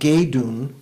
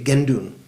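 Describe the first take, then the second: First: The first syllable is plain, without a nasal. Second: The first syllable is nasalized with an n. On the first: "literally, it's geidun" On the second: "when you say it fast, you say gendun"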